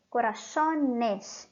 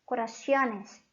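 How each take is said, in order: First: Corazones slowly, "co-ra-SO-nes", no i-glide; correct plural. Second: Corazones mispronounced as "co-ra-SYO-nes"; wrong plural. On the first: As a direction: draw out corazones with a clean "so". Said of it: "este es el plural correcto". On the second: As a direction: put an extra i-glide in corazones, "-cio-nes". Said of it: "Eso no existe". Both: Shown as a demonstration.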